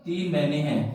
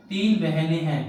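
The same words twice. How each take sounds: The two takes are said the same way.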